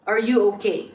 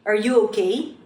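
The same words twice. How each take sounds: First: "okay" kept level, with no questioning rise; robotic, unraised "okay"; flat tone. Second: "okay" swept upward at the end; rising tone. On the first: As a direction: keep "okay" flat and falling at the end. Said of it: "an example of using a flat tone". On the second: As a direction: lift "okay" into a yes-or-no question. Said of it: "You should use a rising tone". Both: Shown as a demonstration.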